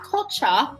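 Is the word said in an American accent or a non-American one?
non-American. The word is said with a non-American pronunciation. The speaker calls it wrong. "not culture"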